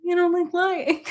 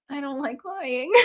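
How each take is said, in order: First: Higher, disbelieving and laughing; amused, mock-outraged echo; incredulous [name]. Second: Softer, flat-voiced and laughing through it; softly, holding back a giggle; deadpan honest [name]. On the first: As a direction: throw the words back at her in disbelief. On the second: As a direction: say it as a simple fact.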